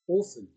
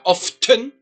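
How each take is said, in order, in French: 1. Le son T n'est pas du tout prononcé. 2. Le son T se prononce au milieu. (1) "le T silencieux. C'est comme si le T n'existait pas" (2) "et pas often"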